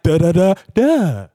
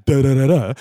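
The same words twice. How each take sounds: First: Director's demo reading, "da da da DA"; the corrected tone. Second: "da da da da" in an even rhythm, dropping at the end; imitated wrong line reading of "da da da da". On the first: Retold or imitated. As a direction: punch the final "da" high and louder, then let it fall. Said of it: "Say it like". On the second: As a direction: run "da da da da" together without lifting the last "da". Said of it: "the tone right. So he'll be like".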